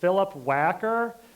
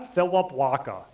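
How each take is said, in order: First: The L and R sounds are pronounced clearly. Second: The L and R sounds are dropped or replaced.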